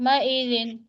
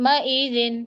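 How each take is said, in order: The two takes are said the same way.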